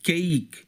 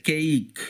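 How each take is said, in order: The two takes are said the same way.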